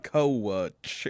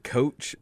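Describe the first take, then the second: First: "coach" drawled as koh-uch; Southern two-syllable coach. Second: Said in the usual way. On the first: Shown as a demonstration. Grandson shows the drawled "coach" again. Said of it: "two syllables". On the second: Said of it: "is not".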